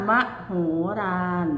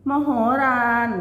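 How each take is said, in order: First: มโหฬาร broken up, with a pause before ฬาร; syllable-by-syllable reading. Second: Said in the usual way. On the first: Shown as a demonstration. Teacher showing pupils how it reads, syllable by syllable. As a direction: sound out มโหฬาร in measured, separate syllables. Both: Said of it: "อ่านว่า".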